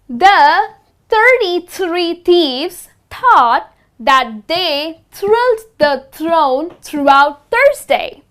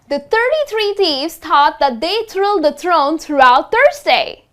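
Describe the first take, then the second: First: It is said slowly. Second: It is said faster.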